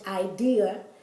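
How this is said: The word is said with English vowel sounds. The speaker calls it wrong. "It looks like in our language idea"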